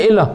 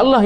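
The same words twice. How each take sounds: First: "Elah" with an initial E, "ee-loh"; Hebrew pronunciation. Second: "Allah" with an initial A, "al-loh"; our pronunciation. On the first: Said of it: "ya Elah". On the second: Teacher showing our form of God's name, "Allah" as "al-loh". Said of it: "Kita Allah". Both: Shown as a demonstration.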